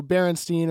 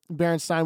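First: "Berenstein" ending like "steen". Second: "Berenstein" ending like "stine". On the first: Offering one way to say the show's name, "Berenstein" ending in -steen. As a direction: say "Berenstein" with a long ee in the last syllable. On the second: Offering the other way to say the show's name, "Berenstein" ending in -stine. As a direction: say "Berenstein" with a long i, rhyming its last syllable with "sign". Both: Shown as a demonstration. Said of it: "whatever, however you pronounce it".

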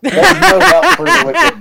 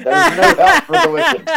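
First: Higher, louder mock echo of the cousin; imitating cousin. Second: Higher mock quote, laughing through it; imitating cousin. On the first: Friend mimicking cousin's remark, higher and louder. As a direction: parrot the cousin's line back, pitched up. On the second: Friend quoting cousin, higher and laughing. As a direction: repeat the cousin's words pitched up, giggling. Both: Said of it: "that's what your own cousin said".

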